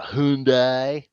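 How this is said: It is said in a Southern American drawl. "he loves to make fun of Southern accent"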